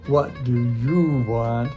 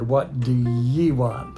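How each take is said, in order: First: The word 'you' is said fully and clearly. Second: The word 'you' is reduced to 'ye'. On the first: This is careful, standard speech. The speaker calls it right. "good pronunciation is" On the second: The speaker is rough and from a low class. The speaker calls it wrong. "bad man from a low class"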